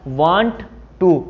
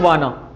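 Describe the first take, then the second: First: Two full words are said separately. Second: The words are blended into one reduced word.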